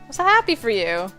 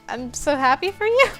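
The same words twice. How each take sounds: First: It falls firmly like an exclamation. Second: It rises at the end like a question.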